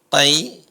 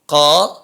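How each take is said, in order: First: The vowel glides from a toward i. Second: The vowel is a plain a without a glide.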